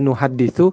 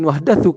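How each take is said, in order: First: The vowel before the last syllable is 'i'. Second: The vowel before the last syllable is 'a'. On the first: We pass the hadith on to others. "kalau dibaca nuhaditsu" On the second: We receive the hadith from others. "Atau kalau mau dibaca nuhaddatsu"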